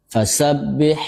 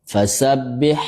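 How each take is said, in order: The two takes are said the same way.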